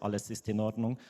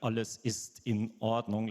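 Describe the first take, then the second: First: The words run smoothly into each other. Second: Each word starts fresh with a catch. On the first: "not like the Italians who would say" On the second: "like we start every word from scratch"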